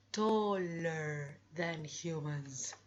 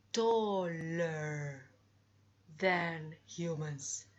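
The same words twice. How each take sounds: First: Teacher repeats with Taller punched; slow model phrase. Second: Teacher models taller than humans; slow model phrase. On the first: Teacher to class, slow repeat stressing Taller. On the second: Teacher to class, slow demo of than. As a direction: stress on than, said slowly. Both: Shown as a demonstration.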